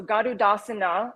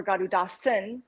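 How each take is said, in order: First: Garudasana ending in "na"; Garudasana, closing vowel pronounced; final A sounded. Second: Garudasan ending on the N; Garudasan, last vowel dropped; silent final A. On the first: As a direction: say Garudasana with the last A voiced. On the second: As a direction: say "Garudasan" with no A at the end. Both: Shown as a demonstration. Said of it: "without the A at the end".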